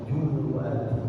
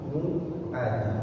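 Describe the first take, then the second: The two takes are said the same way.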